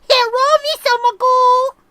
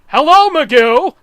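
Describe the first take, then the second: First: It is a caricatured Asian-sounding voice. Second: It is a plain, neutral-sounding voice.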